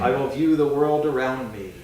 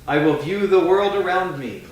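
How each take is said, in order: First: It is spoken a little more softly. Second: It is spoken at a normal full volume.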